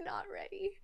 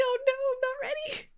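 First: Whisper. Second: Flustered. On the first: Repeats it laughing softly. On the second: Flustered at stream start. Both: Real, not acted.

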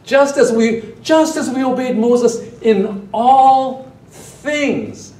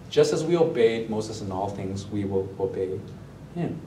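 First: "Just" hit hard, higher, louder and slow; mocking slow stress on "Just"; emphatic reading. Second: Said in the usual way. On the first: Shown as a demonstration. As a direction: lean hard on "Just as we obeyed Moses". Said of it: "Peggy, our worship leader, discerned correctly". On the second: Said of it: "This is a half-hearted promise".

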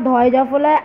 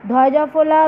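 Both takes have the same delivery.

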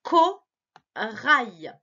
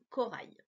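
First: Corail louder and drawn out; slow reading aloud. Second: Said in the usual way. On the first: Shown as a demonstration. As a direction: read Corail slowly for a child. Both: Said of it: "essaie de lire avec moi".

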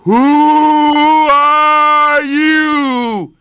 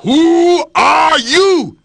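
First: Hollow, drawn-out echo from the well; the well throwing the lion's words back, echoing. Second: Slow, loud lion's roar down a well; growling shout. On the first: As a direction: let it ring back from far below. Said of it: "his echo came back up". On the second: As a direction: bellow it into the deep. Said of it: "he growled down into the deep well". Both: Acted.

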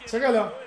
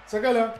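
Both takes have the same delivery.

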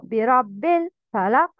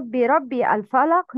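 First: برب الفلق joined as "birabbil-falaq"; dropped hamzat wasl. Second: برب الفلق split as "birabbi al-falaq"; pronounced hamzat wasl. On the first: Teacher correcting learners, linked برب الفلق without "a". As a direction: run برب straight into the "l" of الفلق. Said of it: "Don't pronounce همزة الوصل". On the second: Teacher showing the mistake, separate "al" in برب الفلق. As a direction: restart الفلق with its own "a". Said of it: "Not برب الفلق". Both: Shown as a demonstration.

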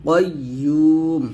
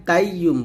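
First: কাইয়্যুম with a thick back "qoy", "yuu" held; heavy qaf. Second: কাইয়্যুম with a thin "kai" and short "yum"; wrong light k. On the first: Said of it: "কফটা মোটা করে বলতে হবে". (কাইয়্যুম-এর কফ মোটা করে বলা) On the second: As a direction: say কাইয়্যুম quickly with a front k. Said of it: "কাইয়্যুম বলবেন না". (কাইয়্যুম পাতলা "কাই" দিয়ে বলা) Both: Shown as a demonstration.

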